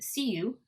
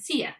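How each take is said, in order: First: Both words are said fully and clearly. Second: The second word is weakened to a short vowel. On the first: "the strong form" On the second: "the weak form or reduced form"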